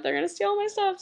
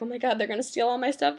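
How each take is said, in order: First: Higher, hammed-up fearful repeat; mock panic about thieves; mock paranoid whine. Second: Said in the usual way. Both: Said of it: "freaking out everyone".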